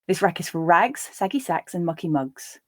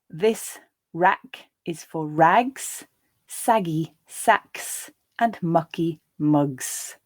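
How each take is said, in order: First: The sentence is read at a natural pace. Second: The sentence is read slowly. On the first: "the second and third times at a more natural pace" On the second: "I'll read the first time more slowly"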